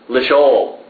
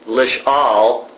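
First: The second vowel is an 'o' sound. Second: The second vowel is a short 'a' sound. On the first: This is the reading the written consonants give. "the consonants have lishol" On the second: This is the reading the notes direct you to use. "So they want you to read with the comments"

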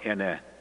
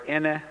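First: The word is said on a low tone. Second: The word is said on a high tone. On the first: It means the number four. "pronounce it with low tone" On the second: It means mother, said politely. "with high tone is mother"

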